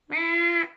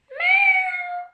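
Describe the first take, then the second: First: It is voiced like a daddy cat. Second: It is voiced like a baby kitten.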